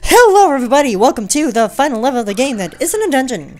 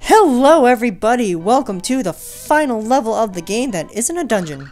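First: It is spoken very fast. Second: It is spoken at a normal pace.

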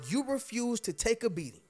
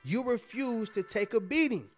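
First: The phrase is said at normal volume. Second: The phrase is said at louder volume.

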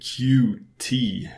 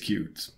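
First: It is spoken as two separate letters. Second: It is spoken as the single word cute. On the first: "I guess you pronounce it" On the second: "Or maybe it's cute"

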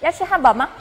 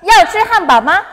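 First: It is said at a normal, quieter volume. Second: It is said more loudly.

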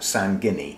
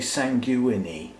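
First: The ending sounds like the word 'guinea'. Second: The ending does not sound like 'guinea'. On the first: "G-U-I-N-E-A spells guinea, if you put S-A-N on the front, I'm going to pronounce that sanguinea" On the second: "You could say sanguinea"

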